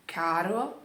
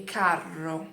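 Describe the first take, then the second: First: Caro with one short tapped r; a light single r in Caro. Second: Carro with a long rolled rr; double R. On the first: Teacher repeating the pair for learners, single r. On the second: Teacher repeating the pair for learners, double r. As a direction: trill the rr in carro and hold it. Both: Shown as a demonstration. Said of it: "com a letra dupla".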